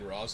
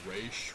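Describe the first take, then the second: First: The name ends with an s sound. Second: The name ends with an sh sound.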